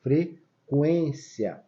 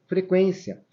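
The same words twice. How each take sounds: First: "Frequência" very slowly, with the U sounded; stretched "Frequência", U clearly voiced; U pronounced. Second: Said in the usual way. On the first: Shown as a demonstration. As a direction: draw out "Frequência" so the U is heard as "kwen". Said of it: "pra gente saber que deveríamos pronunciar o U". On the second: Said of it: "deveríamos pronunciar o U".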